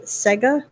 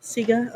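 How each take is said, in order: First: "Sega" with a short e, SEH-guh; "Sega" like the game console; pronunciation check. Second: "Sega" with a long ee, SEE-guh; "Sega" with first syllable like "see"; corrected pronunciation. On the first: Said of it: "assuming I'm pronouncing that right". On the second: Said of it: "I usually go with Sega". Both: Shown as a demonstration.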